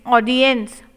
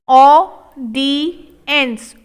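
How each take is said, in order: First: Said in the usual way. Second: Audience drawn out, falling at the end; slow model take. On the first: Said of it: "normal repeat". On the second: Shown as a demonstration. Teacher modelling audience slowly for the class. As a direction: linger over each sound. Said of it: "slow model take".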